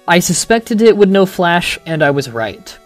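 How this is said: A short comma pause comes before 'and'.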